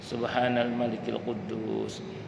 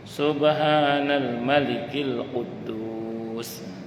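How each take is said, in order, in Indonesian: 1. Diucapkan dengan panjang dan volume yang biasa. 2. Diucapkan lebih keras dengan vokal dipanjangkan.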